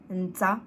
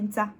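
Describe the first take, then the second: First: It is said slowly with a strong n. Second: It is said fast with a swallowed n. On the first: "je dis tout doucement... j'appuie bien sur le n" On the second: "en rapidos, on dit nta... un petit peu avalé"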